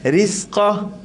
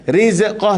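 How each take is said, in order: First: The z sound is smooth without an echo. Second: The z sound is bounced with an echo. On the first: The speaker calls it right. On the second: The speaker calls it wrong.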